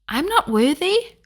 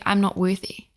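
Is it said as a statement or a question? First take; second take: question; statement. First: It is said as a questioning rise. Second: It is said as a flat statement.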